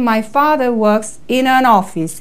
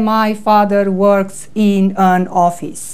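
First: The words are linked together smoothly. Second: The words are said separately without linking. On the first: The speaker calls it right. "Noi trebuie să citim" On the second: The speaker calls it wrong. "nu se va spune"

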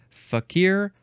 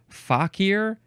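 First: The stress is on the second syllable. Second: The same.

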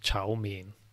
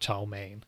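First: It is said with a Mandarin Chinese pronunciation. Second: It is said with an American English pronunciation. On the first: "It's actually pronounced chow mein" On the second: "or in like American English, chow mein or something like that"

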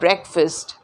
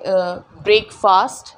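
First: It is said as one blended word. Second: It is said as two separate parts, break and fast. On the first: "इसे फिर हम बोलते हैं ब्रेकफास्ट" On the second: "क्योंकि फास्ट को ब्रेक किया जाता है"

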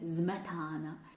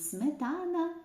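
First: The word begins with a z sound. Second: The word begins with an s sound. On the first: "вони дуже кумедно промовляються «зметана»" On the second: "коли чують «сметана»"

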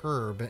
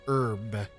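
First: The word is said the British way. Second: The word is said a non-British way. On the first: "over in the UK, they say herb" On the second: "instead of herb"

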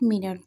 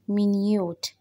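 First: The stress is on the first syllable. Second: The stress is on the second syllable. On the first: "This is not minute" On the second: "this is minute"

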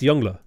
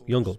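First: The name ends in an 'ah' sound. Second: The name ends in an 'ul' sound. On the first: The speaker calls it right. "which is the correct way to pronounce it" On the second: The speaker calls it wrong. "it's funny to say Youngle"

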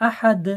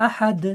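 Both takes have the same delivery.

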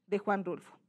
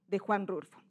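No difference in how they are said.

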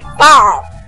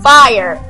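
First: The word is said in a country accent. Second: The word is said in a standard accent. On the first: This is how the character says it. "Bill's like, ... Maybe he has a country accent" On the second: This is the usual way to say it. "instead of"

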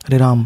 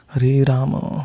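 First: The last word ends on a bare m sound. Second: The last word ends with a full vowel after m. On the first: The speaker calls it wrong. "It is not Ram because the Ma is not a halant" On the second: The speaker calls it right.

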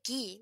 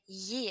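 First: The word begins with a hard g sound. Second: The word begins with a y sound. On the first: The speaker calls it wrong. "we don't say gi" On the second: The speaker calls it right. "we say yi"

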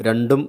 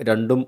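No difference in how they are said.

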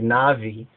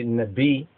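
First: The middle consonant is a v sound. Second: The middle consonant is a b sound. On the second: This is the pronunciation preferred by Beta Israel. "we say Nabi"

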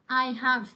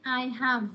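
No difference in how they are said.

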